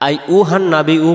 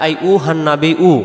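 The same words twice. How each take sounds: Both takes have the same delivery.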